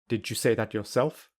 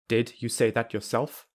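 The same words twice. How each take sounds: First: The d and y merge into j. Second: The d and y stay separate sounds. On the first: "I will use linking" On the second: "I will say them without linking"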